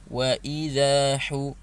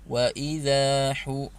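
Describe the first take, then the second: The two takes are said the same way.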